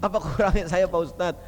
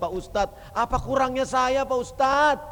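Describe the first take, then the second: First: Said in the usual way. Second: Pleading wife. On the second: Retold or imitated. Wife complaining to the preacher.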